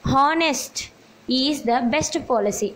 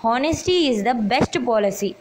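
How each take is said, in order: First: Says हॉनेस्ट where the noun belongs, slowly; slow read with the adjective हॉनेस्ट; teacher reads the wrong word हॉनेस्ट before correcting it; wrong form honest. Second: Honesty said with a clear final ee, very slowly; slow dictation of the correct honesty; teacher reads the corrected honesty sentence slowly; corrected form honesty. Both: Shown as a demonstration. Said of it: "हॉनेस्टी बोलते हैं".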